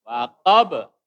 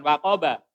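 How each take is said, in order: First: Loud "Waqab" stopped on an echoing b; correct bounced stop. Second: "waqaba" with a full final a; wrong open ending. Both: Shown as a demonstration. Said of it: "Bukan waqaba".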